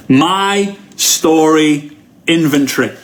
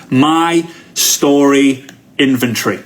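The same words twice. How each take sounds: First: Slow, deliberate naming; slow and emphatic title; spelled-out slow title. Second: Slow dictation. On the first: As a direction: say the title slowly, word by word. Repeats title slowly. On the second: Dictating the note title. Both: Shown as a demonstration.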